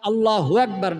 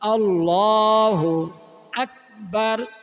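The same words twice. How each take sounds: First: The two words are run together. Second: The two words are kept separate. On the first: The speaker calls it wrong. "আল্লাহু আকবার না" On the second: The speaker calls it right. "আল্লাহু আলাদা শব্দ, আকবার আলাদা শব্দ"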